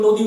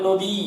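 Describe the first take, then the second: First: Said in the usual way. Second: "নদী" with the last ী held long; drawn-out final vowel. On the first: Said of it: "যেমন নদী উচ্চারণ করি যদি". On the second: Shown as a demonstration. Teacher demonstrating a long vowel to students, final ী of "নদী" stretched. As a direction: let the end of "নদী" trail on as a long ee. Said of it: "শেষে একটা টান থাকছে".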